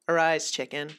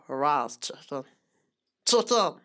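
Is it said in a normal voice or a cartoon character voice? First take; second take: normal; cartoon character. First: It is said in a plain, ordinary speaking voice. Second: It is said in a put-on cartoon character voice. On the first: "She'll just say, like" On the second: "She tries to bait me into doing the meat wad voice"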